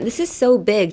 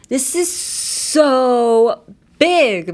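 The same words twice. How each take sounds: First: It is said plainly, with ordinary energy. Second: It is said emphatically, with strong energy. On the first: The thing is just big. "じゃなくて" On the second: The thing is tremendously big. "みたいな感じで言ったら、もう全然tremendous に、並ぶことができる"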